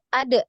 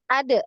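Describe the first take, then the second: First: The final d is released with a bounce. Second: The final d is released with a bounce.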